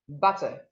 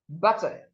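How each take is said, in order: The two takes are said the same way.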